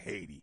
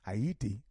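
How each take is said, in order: First: The name is said with two syllables, like Hay-tee. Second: The name is said with three syllables, like Ayiti. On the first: The speaker calls it wrong. "It's not Haiti" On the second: The speaker calls it right. "That's how you pronounce Haiti"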